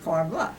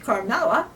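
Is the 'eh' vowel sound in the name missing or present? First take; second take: missing; present. First: The name drops its 'eh' vowel sound. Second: The name keeps its full 'eh' vowel sound. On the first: Someone else said it this way. The speaker calls it wrong. "the way she said it was Carmela" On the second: This is the name's real form. The speaker calls it right. "It's Carmela"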